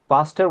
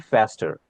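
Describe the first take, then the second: First: The word is said with a British accent. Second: The word is said with an American accent. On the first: "faster will be British" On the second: "American will be faster"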